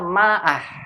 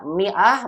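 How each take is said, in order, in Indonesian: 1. Vokal pertama adalah bunyi a. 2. Vokal pertama adalah bunyi i. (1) "bukan dibaca ma'ah" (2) "kita bacanya mi'ah"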